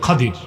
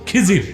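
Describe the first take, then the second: First: The first vowel is 'a', with a 'd' sound. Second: The first vowel is 'i', with a 'z' sound. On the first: The speaker calls it right. "বিফাতহিল খা ওয়া কাসরিদ দাদ" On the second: The speaker calls it wrong. "আমাদের দেশের লোক বলে কি খিজির, এটা ভুল উচ্চারণ"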